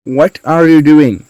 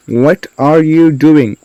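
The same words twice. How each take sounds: First: Said in the usual way. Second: Slowed-down question for learners; slow model sentence. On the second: Shown as a demonstration. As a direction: space out "What are you doing" slowly. Teacher repeats more slowly.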